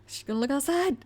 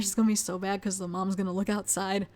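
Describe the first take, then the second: First: High-pitched squeal of anticipation; mock dread. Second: Said in the usual way. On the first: Viewer dreading the mom's discovery, high mock panic. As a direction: squeak it out in playful alarm.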